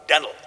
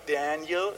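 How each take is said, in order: First: Daniel run together in an American accent. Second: Daniel pronounced carefully in British English, syllables distinct; British English pronunciation. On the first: Preacher imitating Moody's way of saying it, American-accented Daniel. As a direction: say Daniel in broad American slang, louder. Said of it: "so amerikanisch". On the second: Preacher showing what Moody didn't say, carefully articulated British Daniel. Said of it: "hat nicht mit zwei Simmeln". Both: Shown as a demonstration.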